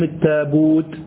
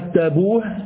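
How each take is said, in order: First: The word ends with a t sound. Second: The word ends with an h sound. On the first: "بالتاء" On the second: "بالهاء المغلقة"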